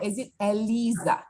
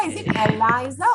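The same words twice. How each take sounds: First: Eliza, middle syllable rhyming with "see"; Eliza as e-LEE-za. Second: Eliza, middle syllable rhyming with "lie". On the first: Professor offering the other name reading, Eliza said e-LEE-za. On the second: Professor checking a student's name, Eliza said e-LIE-za. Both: Shown as a demonstration. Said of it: "is it Eliza or is it Eliza?".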